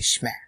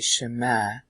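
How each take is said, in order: First: The word is squeezed into a single syllable. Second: The word has two syllables with a full vowel. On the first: This is the typical present-day way of saying it. "today they say shma" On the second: This is the older way of saying it. "in the old days, they used to say shema"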